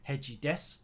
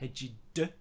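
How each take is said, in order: First: The phrase ends with a clear s sound. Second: The phrase ends without any s sound. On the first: The speaker calls it right. "I didn't say heji des at the end" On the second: The speaker calls it wrong. "I said heji de, which is not right"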